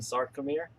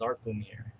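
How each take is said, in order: First: The word begins with an s sound. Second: The word begins with a z sound.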